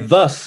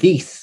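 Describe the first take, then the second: First: The vowel is a central 'uh'-like sound. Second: The vowel is a clear front 'i' sound. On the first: This is how New Zealanders say it. "We say thus" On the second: This is how others say it. "instead of this"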